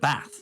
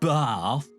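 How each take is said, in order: First: It is said in a northern Yorkshire accent. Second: It is said in a southern English accent. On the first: The speaker has picked up the Yorkshire accent. "instead of bath" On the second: The speaker has gone back to sounding southern. "go back to calling it bath"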